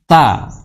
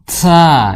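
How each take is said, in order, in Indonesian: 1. Bunyi t-nya tegas, titik. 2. Bunyi t-nya digesek dengan desisan.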